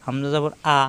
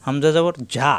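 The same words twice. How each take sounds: First: হামজা জবর আ, with the hamza as a clean open আ, no ঝ sound; correct hamza reading. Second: হামজা জবর ঝা with the hamza sounded as a hard ঝা, the wrong way; wrong hamza reading. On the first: Teacher shows students the correct hamza vowel. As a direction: read it right: আ, not ঝা. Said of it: "হামজা জবর আ হবে". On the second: Teacher shows students the wrong hamza sound. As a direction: demo the mistake, voicing ঝা instead of a plain আ. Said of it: "এরকম হবে না কিন্তু". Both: Shown as a demonstration.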